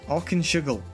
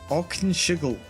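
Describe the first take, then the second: The two takes are said the same way.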